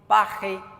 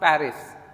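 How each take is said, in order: First: It is said with a French accent. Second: It is said with an English accent. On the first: "French वाले प्रोनाउंस करते हैं" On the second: "English में भी pronounce पेरिस"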